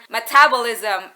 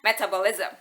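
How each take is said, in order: First: "metabolism" with the second syllable TAB punched; stress on TAB. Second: "metabolism" softer, with "tab" left unstressed; "metabolism" with no punch on the second syllable; wrong stress. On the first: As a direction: say me-TAB-olism, the American way. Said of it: "bahwa aku mengucapkan metabolism as". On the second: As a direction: say "metabolism" the Indonesian learner's way. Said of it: "aku mengucapkan metabolism as". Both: Shown as a demonstration.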